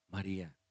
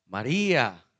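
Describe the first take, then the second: First: Low, soft calling of a name; special, recognisable voice. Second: Low, loud calling of a name; recognisable call. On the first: Jesus calls Mary by name at the tomb, softly. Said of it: "con esa voz". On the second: Jesus makes Mary recognise his voice, calling strongly. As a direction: call the name out firmly, with a falling end. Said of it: "era una voz reconocible". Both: Acted.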